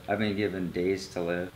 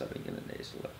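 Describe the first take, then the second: First: Said in the usual way. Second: Hushed, breathy whisper. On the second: Real, not acted. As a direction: drop to a whisper on it. Repeats the line, dropping to whisper.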